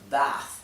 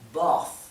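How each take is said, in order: First: It has an American accent with an open vowel. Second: It has a British accent with a closed vowel. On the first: "se pronunciarían así en inglés americano, que tiene las vocales bien abiertas" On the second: "Para un inglés más británico, las vocales son más cerradas"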